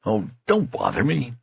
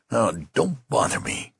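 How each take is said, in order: First: Exasperated. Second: Desperate menace. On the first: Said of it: "cry of exasperation". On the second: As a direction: warn him off, desperate. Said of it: "with desperate menace". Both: Acted.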